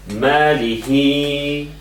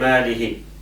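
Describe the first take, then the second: First: The vowel after the ha is drawn out long. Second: The vowel after the ha is kept short. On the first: The speaker calls it right. "So you just elongate these" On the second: The speaker calls it wrong. "You don't say ماله"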